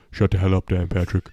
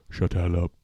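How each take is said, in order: First: Said in the usual way. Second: [name] voice. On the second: Retold or imitated. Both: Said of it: "This is [name]".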